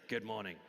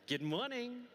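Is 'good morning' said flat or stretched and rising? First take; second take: flat; rising. First: The greeting is said flat and short. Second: The greeting is stretched and rises in pitch. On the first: The speaker calls it wrong. "I don't say this. I don't say good morning" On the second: The speaker calls it right. "stretching a word and going up"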